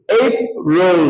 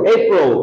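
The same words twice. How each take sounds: First: এইপ রোল said as two separate words with a break; split ape roll. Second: এইপ রোল run together as one smooth word; joined ape roll. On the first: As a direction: say এইপ রোল apart, wrongly. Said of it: "না, একসাথে করো". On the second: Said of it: "একসাথে করো". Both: Shown as a demonstration.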